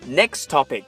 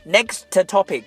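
First: Only one t sound links the words. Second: Both t sounds are pronounced separately. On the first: The speaker calls it right. "我们只需要说后一个词topic 这里的t 就可以了" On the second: The speaker calls it wrong. "而不是说next topic"

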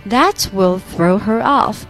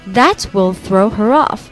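Both takes have the same delivery.

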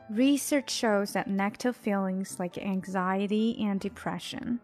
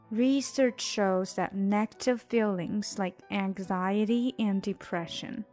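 First: It is read a little faster. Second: It is read at a normal pace. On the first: "再来一遍，稍微快一些。" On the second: "再来一遍。"

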